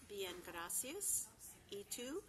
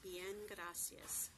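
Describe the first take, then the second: First: 1 slow demo. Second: "Bien, gracias" said very slowly and clearly; slow model phrase. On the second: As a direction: spell it out with your voice. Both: Shown as a demonstration. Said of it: "pronounced exactly as it's spelled".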